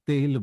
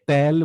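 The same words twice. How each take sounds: First: The vowel is closer, like 'e'. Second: The vowel is open, like 'ae'. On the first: The speaker calls it right. "আমরা তেল বলবো" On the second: The speaker calls it wrong. "আমরা তেল বলবো না"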